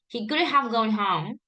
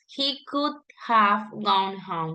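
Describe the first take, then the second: First: It is said smoothly linked without pauses. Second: It is said with pauses between the words.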